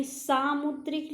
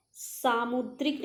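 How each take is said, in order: First: सामुद्रिक with a higher, stretched 'saa'; long first vowel. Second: सामुद्रिक said quickly, first vowel unstressed; mistaken form. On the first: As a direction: lean on the first syllable of सामुद्रिक. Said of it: "सामुद्रिक लिखिए". (सामुद्रिक में 'सा' पर ज़ोर) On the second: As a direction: give सामुद्रिक as the form to reject. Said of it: "सामुद्रिक नहीं". (सामुद्रिक बिना पहले अक्षर पर ज़ोर) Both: Shown as a demonstration.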